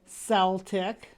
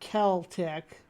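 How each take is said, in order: First: The word begins with a soft S sound. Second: The word begins with a hard K sound. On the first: "John's saying Celtic" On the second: "which I've seen it with the K"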